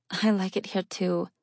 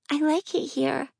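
First: Said in the usual way. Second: Put-on high little girl, pleading; pleading child voice.

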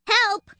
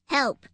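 First: Loud, high-pitched cry for help; panicked shout. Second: Squirrel's raised cry for help; a first, contained yelp of panic; panicked cry. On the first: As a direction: shriek it as a panicking squirrel. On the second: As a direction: call out in mild alarm. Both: A narrator's reading. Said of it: "out of breath and in a panic".

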